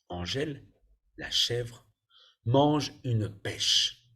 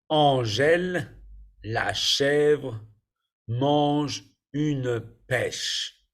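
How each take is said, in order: First: It is read a little faster, at normal pace. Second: It is read slowly, at a careful pace.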